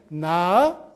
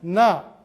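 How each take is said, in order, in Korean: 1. 이 음절은 낮게 시작해서 높게 올라가요. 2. 이 음절은 낮은 음으로 발음해요. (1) "점이 두 개면" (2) "점이 없으면"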